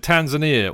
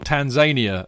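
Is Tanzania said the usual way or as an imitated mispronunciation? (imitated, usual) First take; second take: usual; imitated. First: The name is pronounced the usual way. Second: The name is pronounced in an imitated mispronunciation.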